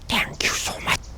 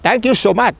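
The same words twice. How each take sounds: First: It is said softly and quietly. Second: It is said loudly and clearly.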